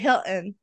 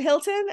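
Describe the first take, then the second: First: The middle T becomes a glottal stop. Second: The middle T is clearly pronounced. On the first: "You swallow that T, the glottal stop" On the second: "I always say the T"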